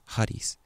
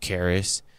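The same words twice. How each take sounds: First: It is pronounced the Greek way. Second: It is pronounced the English way. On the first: "but the correct pronunciation is charis" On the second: "In English, it's charis"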